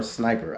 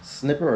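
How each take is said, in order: First: "Sniper" with a long i; "Sniper" with first syllable like "snipe"; corrected sniper. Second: "Snipper" with a short i; "Snipper" with short-i first syllable; misread sniper. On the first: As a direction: say "Sniper", rhyming with viper. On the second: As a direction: say "Snipper", rhyming with dipper. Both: Shown as a demonstration. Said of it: "I think that's Sniper".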